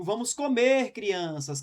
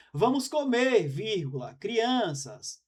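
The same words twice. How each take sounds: First: "vamos comer crianças" run together with no pause after "comer"; no comma. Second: "Vamos comer" then a clear pause at the comma before "crianças". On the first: Teacher to class, reading it with no comma pause. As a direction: say "vamos comer crianças" in one breath, no break. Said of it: "quando eu digo". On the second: Teacher to class, showing the comma as a pause. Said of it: "é o convite". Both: Shown as a demonstration.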